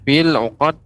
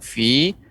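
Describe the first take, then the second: First: The vowel is short and runs into the next word. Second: The vowel is long and the word stands alone. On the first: "ketika disambung maka ya sukun tidak dibaca" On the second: "kalau berhenti di pada kata fi maka dibaca panjang"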